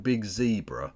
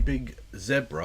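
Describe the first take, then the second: First: Zebra is said with an American pronunciation. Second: Zebra is said with a British pronunciation.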